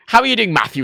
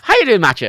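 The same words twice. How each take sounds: First: High, fully worded English "How are you"; telling-off English. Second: Loud, high Irish hello with "Matcha"; casual Irish. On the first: English speaker seeming to tell him off, stern English. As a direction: greet in English as if scolding. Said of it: "sounds like I'm being told off". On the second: Contrasting Irish with being told off, casual Irish. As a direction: run it together in an easy Irish lilt. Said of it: "It's casual". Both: Retold or imitated.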